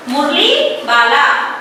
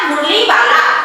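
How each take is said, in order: First: मुरली वाला said slowly, Murali rising at its end; slow pronunciation model. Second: Said in the usual way. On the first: Shown as a demonstration. Teacher modelling a hard word for pupils, मुरली वाला said slowly. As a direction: draw out Murali and वाला as two separate words. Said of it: "सही से इसका उच्चारण". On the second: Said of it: "कौन आया?".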